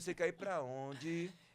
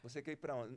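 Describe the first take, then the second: First: It is said in a Bahian regional accent. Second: It is said in a neutral Brazilian accent.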